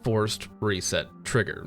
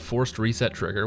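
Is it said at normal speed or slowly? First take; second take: slowly; normal. First: It is said slowly and deliberately. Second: It is said at normal speed.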